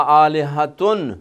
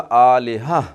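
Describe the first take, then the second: First: The word ends with a 'tun' sound. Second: The word ends with an 'ah' sound. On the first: The reader carries on without stopping. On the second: The reader stops on this word.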